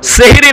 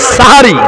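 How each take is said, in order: First: The first vowel is an 'eh' sound. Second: The first vowel is an 'ah' sound. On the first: It names magic rather than the pre-dawn meal. The speaker calls it wrong. "সেহরি নয়" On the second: It names the pre-dawn meal. The speaker calls it right.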